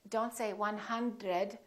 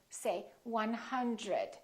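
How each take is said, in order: First: The dr is a plain, separate d and r. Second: The dr sounds soft, close to a j. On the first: The speaker calls it wrong. "Don't say" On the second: The speaker calls it right.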